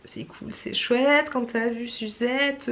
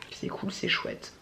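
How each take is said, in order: First: Sung, slow, drawn-out silly rhyme; sung, playful singsong. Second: Softly, slowly to herself; quiet aside. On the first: Pretend. Sung, vlogger amusing herself with a silly rhyme, playful singsong. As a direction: stretch it into a goofy little chant. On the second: Real, not acted. Vlogger musing to herself about filming time, quiet aside. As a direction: say it low and unhurried. Tries a silly rhyme to herself.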